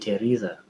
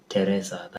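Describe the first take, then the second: First: The name is said in an American accent. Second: The name is said in a Kenyan accent. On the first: This is how it is said here. "But here they say Teresa" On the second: This is how it is said back home. "That's how we used to say it back in Africa, back in Kenya"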